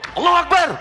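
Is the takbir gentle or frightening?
frightening. It is said in a frightening, aggressive way.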